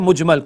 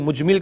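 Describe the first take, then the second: First: The word is said as mujmal. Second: The word is said as mujmil. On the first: The speaker calls it right. "सही लफ्ज क्या है? मुजमल।" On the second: The speaker calls it wrong. "कुछ लोग मुजमिल कहते हैं"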